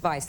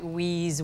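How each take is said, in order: First: It begins with a V sound, like vice. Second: It begins with a W sound, like wheeze. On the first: The speaker calls it right. "but it's Vice" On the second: The speaker calls it wrong. "it looks like wheeze"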